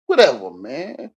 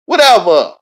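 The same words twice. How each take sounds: First: Slow, shrugging "Whatever, man"; slow dismissive "Whatever, man" at normal pitch. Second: "Whatever" yelled much higher and louder; loud exasperated "Whatever"; shouted dismissal. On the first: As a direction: brush it off slowly with "Whatever, man". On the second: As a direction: bark "Whatever" out hard. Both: Acted.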